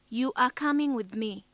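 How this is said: The voice falls at the end. It is a statement with finality. "Falling intonation"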